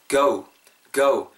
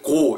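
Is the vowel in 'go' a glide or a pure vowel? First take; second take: glide; pure. First: The vowel glides from o toward u. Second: The vowel is a flat, pure o sound. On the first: The speaker calls it right. "약간 우리말 모음이 어우 정도로 발음된다고" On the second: The speaker calls it wrong. "너무 정직하게 go 이렇게 하지 마시고"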